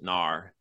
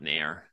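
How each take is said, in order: First: The vowel sounds like the one in 'car'. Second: The vowel sounds like the one in 'hair'. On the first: The speaker calls it right. "I pronounce it NAR" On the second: The speaker calls it wrong. "not NAIR"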